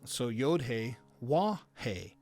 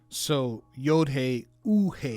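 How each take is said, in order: First: The third letter name begins with a W sound. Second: The third letter name is an oo vowel sound. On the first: This is the classical Hebrew pronunciation. "originally was a Wah, like a W in English" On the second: This is another classical Hebrew pronunciation. "or it could be an oo sound"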